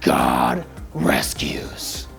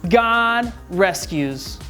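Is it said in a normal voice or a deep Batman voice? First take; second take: Batman voice; normal. First: It is said in a deep Batman voice. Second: It is said in a normal voice.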